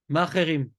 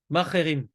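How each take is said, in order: The two takes are said the same way.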